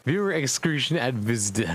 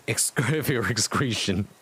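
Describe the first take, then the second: First: Said in the usual way. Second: Cracking up mid-word; reading through giggles; laughing. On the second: Real, not acted. Reader laughing at the typo, words breaking into laughter.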